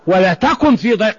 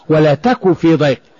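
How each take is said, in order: First: The verb ends with a clear n sound. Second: The verb ends without any n sound.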